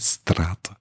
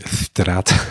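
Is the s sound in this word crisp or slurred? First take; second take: crisp; slurred. First: The s sound is crisp and clear. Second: The s sound is loose and slurred.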